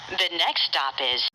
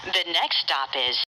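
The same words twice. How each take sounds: The two takes are said the same way.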